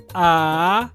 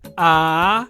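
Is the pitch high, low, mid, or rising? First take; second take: rising; rising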